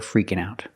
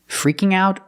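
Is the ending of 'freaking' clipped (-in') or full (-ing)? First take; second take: clipped; full. First: The word ends with a clipped -in' sound. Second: The word ends with a full -ing sound. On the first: "or freakin'" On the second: "you can say freaking"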